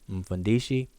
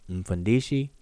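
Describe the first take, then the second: No difference in how they are said.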